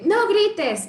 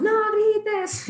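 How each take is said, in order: First: Loud, higher shout of no grites; mock parent yelling. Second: Higher, louder yelled no grites; mock yell of a frazzled parent; shouting. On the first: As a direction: yell the very thing you forbid. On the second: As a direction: bark it like an exasperated parent. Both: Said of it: "y gritamos".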